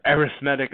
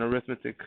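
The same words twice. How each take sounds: First: "arithmetic" as air-ith-MET-ic; alternative pronunciation. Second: Said in the usual way. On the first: Shown as a demonstration. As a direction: stress the third syllable of "arithmetic", MET. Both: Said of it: "as some people say".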